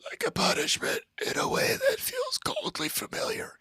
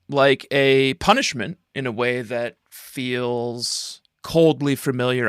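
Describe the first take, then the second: First: It is spoken in a whisper. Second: It is spoken in a normal voice.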